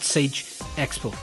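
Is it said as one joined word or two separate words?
two words. It is said as two separate words. The speaker calls it wrong. "Not Sage Expo"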